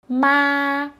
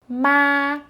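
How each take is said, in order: Both takes have the same delivery.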